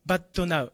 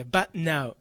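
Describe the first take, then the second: First: But now said as "ba-to na-u"; katakana added vowel. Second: But now as "bat-nau"; no added vowel. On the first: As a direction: sound a full "to" inside "but now". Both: Shown as a demonstration. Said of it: "じゃなくて".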